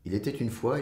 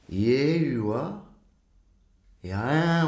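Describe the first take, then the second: First: All the consonants are clearly articulated. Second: Only the vowels are said, consonants dropped. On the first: The meaning comes across clearly. The speaker calls it right. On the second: The meaning is hard to understand. The speaker calls it wrong.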